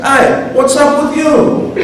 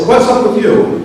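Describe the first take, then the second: First: High, drawn-out Italian American challenge; hammed-up Italian American accent. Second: Said in the usual way. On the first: Shown as a demonstration. Virgil challenging Dante, in an Italian American accent. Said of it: "with an Italian accent, an Italian American accent". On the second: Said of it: "you may not have to do this with an Italian accent".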